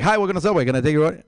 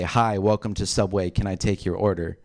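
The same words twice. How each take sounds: First: It is rushed and slurred together quickly. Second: It is said at a normal, clear pace.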